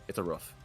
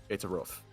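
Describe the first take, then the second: The two takes are said the same way.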